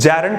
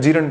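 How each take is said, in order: First: The first syllable has a short 'e' vowel. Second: The first syllable has a long 'ee' vowel. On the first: The speaker calls it right. "जैरंड pronunciation होता है" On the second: The speaker calls it wrong. "मेरे शहर में जीरंड बोला जाता है, गलत pronunciation है"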